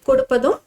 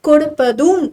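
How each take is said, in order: First: All vowels keep their ordinary short length. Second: A short vowel is drawn out long. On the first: "கொடுப்பதும் அப்படிங்கிறது தான் வார்த்தை" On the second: "ஒரு குரில நெடிலா மாத்துறோம்"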